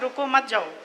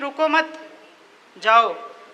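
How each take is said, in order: First: There is a pause after 'ruko'. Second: There is a pause after 'mat'.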